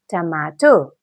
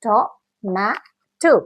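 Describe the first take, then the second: First: Said in the usual way. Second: टोमेटो said very slowly in three parts; टोमेटो drawn out syllable by syllable; split into syllables. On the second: Shown as a demonstration. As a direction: break टोमेटो into three slow pieces. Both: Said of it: "तीन टुकड़े में बांटे".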